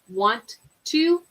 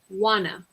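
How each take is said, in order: First: Both words are said fully and separately. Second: The words are blended into one reduced word.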